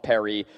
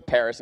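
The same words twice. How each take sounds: First: PARIS as pa-REE, silent S; PARIS pronounced like the French. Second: PARIS with its final S sounded; PARIS the everyday English way. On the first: Agreeing it would be pretentious, PARIS as pa-REE. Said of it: "and calls it Paris". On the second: Agreeing it would be pretentious, PARIS in English. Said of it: "goes to Paris and calls it". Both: Shown as a demonstration.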